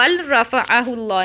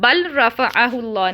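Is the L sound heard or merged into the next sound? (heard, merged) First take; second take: heard; heard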